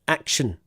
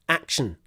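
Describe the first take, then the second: Both takes have the same delivery.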